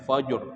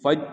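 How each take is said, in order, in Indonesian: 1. Kata itu berakhir dengan bunyi r yang jelas. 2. Kata itu berakhir tanpa bunyi r sama sekali. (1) "kalau tidak dibaca fajr" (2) "faj itu adalah salah satu lahnun jali"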